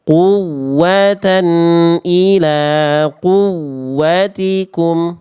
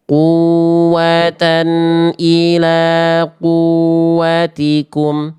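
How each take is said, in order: First: The doubled w is pressed hard and pitched higher. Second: The doubled w is said weakly, without extra pressure. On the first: The speaker calls it right. "Kalau naber atau nabroh" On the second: The speaker calls it wrong. "Itu kalau nggak dibaca naber"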